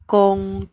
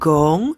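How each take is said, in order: First: It starts with a k-like sound. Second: It starts with a voiced g sound. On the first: The speaker calls it right. "tapi kong" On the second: The speaker calls it wrong. "bukan gong"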